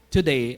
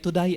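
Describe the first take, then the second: First: It is said with a standard vowel sound. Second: It is said with an Australian vowel sound.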